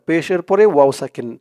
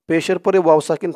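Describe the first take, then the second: No difference in how they are said.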